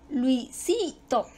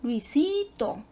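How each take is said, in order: First: "Luisito" slowly as lui, si, to; slow syllable-by-syllable "Luisito"; divided into syllables. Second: "Luisito" slow with a long sí; stress on second syllable. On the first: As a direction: sound out "Luisito" in three spaced beats, weight on si. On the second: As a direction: stretch the si in "Luisito". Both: Shown as a demonstration. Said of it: "Su sílaba tónica cae en la segunda".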